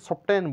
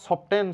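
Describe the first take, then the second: Both takes have the same delivery.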